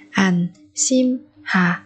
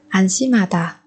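First: Slow, separated "Anshimhada"; syllable by syllable. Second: Said in the usual way. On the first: Shown as a demonstration. Teacher modelling a word for learners, slowly spaced out. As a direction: pause after each syllable of "Anshimhada".

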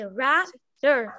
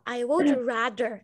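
First: Rather dito caindo, bem devagar; falling tune. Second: Would rather com entonação subindo; rising tune. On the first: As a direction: rather com entonação para baixo. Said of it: "Eu sei que eu fiz pra baixo". (entonação descendo) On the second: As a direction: rather dito subindo, devagar. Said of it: "É pra cima". (entonação para cima) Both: Shown as a demonstration.

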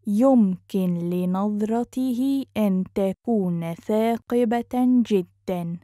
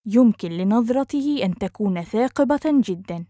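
First: Measured, careful teaching pace. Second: Quick, flowing and joined up; fast model sentence; natural speed. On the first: Teacher repeats phrase slowly joined. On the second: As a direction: run the phrase together fluently. Teacher repeats phrase at speed. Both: Shown as a demonstration.

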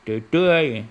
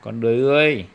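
First: Put-on đười ươi said babyishly as tươi; imitating toddler's mispronunciation. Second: Đười ươi said clearly and loudly as a model; clear correct word for toddler. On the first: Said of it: "Con chú chua". (nhại bé nói "đười tươi") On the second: Shown as a demonstration. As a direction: spell out đười ươi loud and clear for a child. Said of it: "Nói lại nào". (nói rõ "đười ươi" thật to cho bé nghe)

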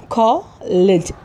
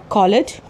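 First: कॉलेज slowly split as कॉ and लेज; syllable by syllable. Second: Said in the usual way. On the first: Shown as a demonstration. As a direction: pause between the two syllables of कॉलेज. (कॉलेज को दो syllable में धीरे से) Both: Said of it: "दो में break हो जाएगा".

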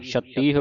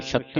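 First: ਛਤੀਹ ending in a sounded h; audible final h. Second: ਛੱਤੀ ending on the vowel, no h; wrong, no final h. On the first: Teacher models ਛਤੀਹ for students, final h sounded. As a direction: let ਛਤੀਹ end on long i and h. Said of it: "ਹਾਹੇ ਦੀ ਆਵਾਜ਼ ਉਚਾਰਨ ਹੋਵੇਗੀ". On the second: Teacher shows the mistake ਛੱਤੀ, final h missing. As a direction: say ਛੱਤੀ with doubled t, h dropped. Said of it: "ਇਹਨੂੰ ਛੱਤੀ ਨਹੀਂ ਬੋਲਣਾ". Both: Shown as a demonstration.

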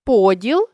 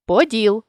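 First: Поділ with ПО stressed; stress on first syllable. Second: Поділ with final ДІЛ stressed; stress on last syllable. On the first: Teacher means division, Поділ stressed on ПО. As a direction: lean on the opening ПО of Поділ. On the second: Teacher means a hem, поділ stressed on ДІЛ. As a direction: land on ДІЛ ending поділ. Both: Shown as a demonstration. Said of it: "залежно від наголосу".

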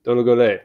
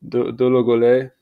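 First: Dologole said firmly with the pitch falling at the end; falling statement tune. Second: Dologole with a rising, questioning tune. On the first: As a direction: state Dologole as a settled fact. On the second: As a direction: say Dologole as if asking. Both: Real, not acted. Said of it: "I keep saying it like a question".

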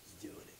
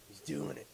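First: Hushed whisper. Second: Said in the usual way. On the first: Real, not acted. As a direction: whisper it tensely while watching. Whispered, then said aloud.

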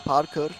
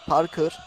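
The two takes are said the same way.

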